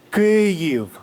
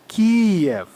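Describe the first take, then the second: First: The name is said as Keev. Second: The name is said as Kee-ev. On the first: The speaker calls it right. "That's good" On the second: The speaker calls it wrong. "This is incorrect. This is the Russian way"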